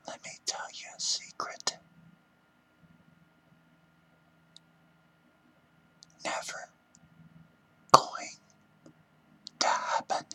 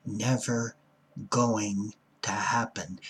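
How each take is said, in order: First: Hushed whisper, word by word at the end; secretive whisper. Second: NEVER, GOING and HAPPEN spaced out firmly, not screamed; held-back scream. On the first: Pretend. Speaker confides a secret to listeners, whispering. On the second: Shown as a demonstration. Would scream it but for the rooming house, firm and restrained. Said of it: "I'd scream this".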